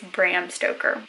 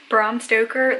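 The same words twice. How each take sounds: First: The vowel in Bram matches Abraham's. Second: The vowel in Bram is unlike Abraham's. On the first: "If it's short for Abraham, I think it's Bram Stoker" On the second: "I normally pronounce it Bram Stoker"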